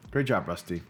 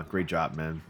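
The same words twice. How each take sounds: First: Whisper. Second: Said in the usual way. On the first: Real, not acted. Reviewer whispers praise to Rusty for his shot. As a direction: breathe the praise with no voice.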